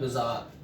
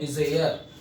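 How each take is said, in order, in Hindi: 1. दूसरा अक्षर 'ar' जैसा सुनाई देता है। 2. दूसरा अक्षर 'air' जैसा सुनाई देता है। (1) "इट्स कॉल्ड बिजार" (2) "कुछ लोग इसे बोलते हैं बिजेयर। ये बिजेयर नहीं होता"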